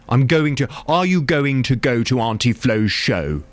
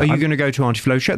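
First: 'Going to' is said fully as two words. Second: 'Going to' is reduced to 'gonna'. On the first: The speaker calls it wrong. "it just sounds a little" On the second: The speaker calls it right. "That sounds more natural"

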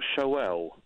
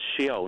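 First: The O sound comes before the E sound. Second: The E sound comes before the O sound. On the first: The speaker calls it wrong. "not Sheol" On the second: The speaker calls it right. "the actual name for the Hades or the afterlife was, yes, Sheol"

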